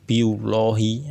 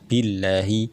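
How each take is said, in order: First: The L is pronounced thick and heavy. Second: The L is pronounced thin and light. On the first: The speaker calls it wrong. "ini adalah cara membaca yang salah" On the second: The speaker calls it right. "maka membacanya billahi"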